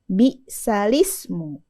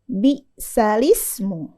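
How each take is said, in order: Both takes have the same delivery.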